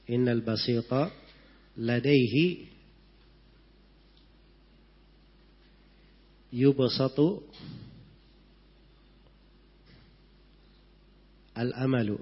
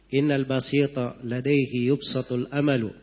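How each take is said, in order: First: The two final words are pronounced separately. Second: The two final words are run together. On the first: This follows the written spelling. "kalau dibaca itu tulisannya begitu ya" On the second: This follows connected recitation. "Kalau bacanya disambung"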